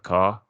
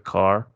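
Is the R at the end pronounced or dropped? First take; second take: dropped; pronounced. First: The final R is dropped. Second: The final R is clearly pronounced.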